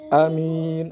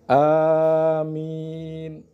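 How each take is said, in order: First: The first vowel is kept short. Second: The first vowel is drawn out long. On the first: "dibaca pendek" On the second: "dibaca panjang"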